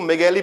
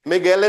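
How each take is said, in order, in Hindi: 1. नाम 'ee' ध्वनि पर खत्म होता है। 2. नाम 'ay' ध्वनि पर खत्म होता है। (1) "उसको मेगैली पढ़ेंगे वो" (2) "मेगैले नहीं पढ़ेंगे"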